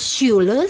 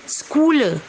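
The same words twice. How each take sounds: First: The word begins with a soft sh sound. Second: The word begins with a rough kh sound. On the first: The speaker calls it right. "harus dibaca S Y" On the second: The speaker calls it wrong. "banyak orang membacanya Schule karena C H"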